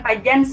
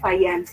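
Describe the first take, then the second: First: The middle consonant sounds like the j in jam. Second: The middle consonant sounds like the y in yes. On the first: This is the local reading of the name. The speaker calls it wrong. "bukan Fajans ya" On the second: This is the name's native reading. The speaker calls it right. "tapi Fayans ya"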